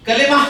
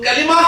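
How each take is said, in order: Both takes have the same delivery.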